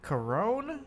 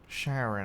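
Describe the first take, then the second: First: The name starts with a K sound. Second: The name starts with an SH sound. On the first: This is how the game pronounces it. "Is that how you say it?" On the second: This is how the speaker always thought it was said. "I always thought it was Sharon"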